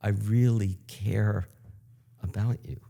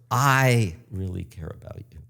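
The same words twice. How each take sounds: First: The stress is on "care". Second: The stress is on "I".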